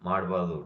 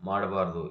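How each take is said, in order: No difference in how they are said.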